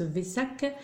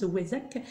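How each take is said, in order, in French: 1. Le mot commence par un son v. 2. Le mot commence par un son w. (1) "il y en a qui le prononcent Vesak" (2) "moi je le prononce Wesak"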